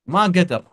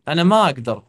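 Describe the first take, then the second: First: The vowel before kdar is merged away. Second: The vowel before kdar is pronounced separately. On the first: "यहाँ पे अकदर की जगह पे मा कदर" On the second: "अकदर की जगह पे"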